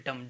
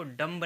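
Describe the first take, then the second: First: डम ending on M; silent B. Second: डम्ब with a sounded B; final B pronounced. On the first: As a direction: say डम with no B at the end. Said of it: "इसको कहेंगे केवल डम". (डम, अंत का ब मौन) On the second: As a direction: say डम्ब, releasing B after M. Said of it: "डम्ब नहीं कहेंगे". (डम्ब के अंत में ब बोलकर) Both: Shown as a demonstration.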